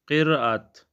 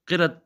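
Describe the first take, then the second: First: The vowel after the r is long. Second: The vowel after the r is short. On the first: The speaker calls it right. "लेकिन इसको क्या पढ़ेंगे क़िरात" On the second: The speaker calls it wrong. "ये दुरुस्त नहीं है"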